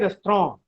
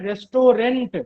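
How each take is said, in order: First: The word ends without a t sound. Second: The word ends with a t sound. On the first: This is how it is spoken. "लेकिन बोलते हैं रेस्टोरेंट" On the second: This is how it is written. "हम लोग लिखते हैं रेस्टोरेंट"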